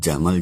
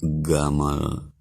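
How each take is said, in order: First: It begins with a soft j sound. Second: It begins with a hard g sound.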